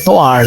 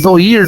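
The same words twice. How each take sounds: First: It is said the French way, like nwar. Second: It is read letter by letter, Portuguese style. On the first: The speaker calls it right. "Mas a pronúncia certa é noir" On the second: The speaker calls it wrong. "Se escreve noir"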